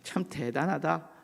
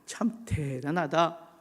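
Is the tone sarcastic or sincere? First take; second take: sarcastic; sincere. First: It sounds sarcastic and mocking. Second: It sounds sincere and admiring. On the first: The praise is not meant; it mocks the person. "비아냥거리는 거죠" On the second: The person really is impressive. "긍정적이죠"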